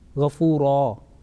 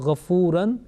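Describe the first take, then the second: First: The word ends with a plain 'a' vowel. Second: The word ends with a nasal 'an' sound. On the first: The reciter stops on this word. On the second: The word is read in running recitation.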